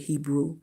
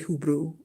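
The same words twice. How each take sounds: First: The first vowel sounds like E. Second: The first vowel sounds like U. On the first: It is how most people say it. "I know people say Hebrew" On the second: It follows the heritage language. "I pronounce it like uh, the heritage language where the E is pronounced U"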